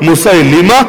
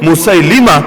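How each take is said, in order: Both takes have the same delivery.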